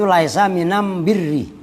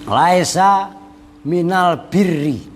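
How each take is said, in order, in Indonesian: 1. Artikel sebelum birri diucapkan am. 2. Artikel sebelum birri diucapkan al. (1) "Lamnya diganti mim menjadi am birru" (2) "itu laisa asalnya kan minal birri"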